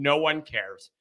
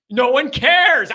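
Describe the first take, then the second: First: Said in the usual way. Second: Louder, higher, slow and emphatic; drawn-out exasperated insistence; emphatic repeat. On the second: Real, not acted. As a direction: hammer it home. Repeats dismissal, second louder.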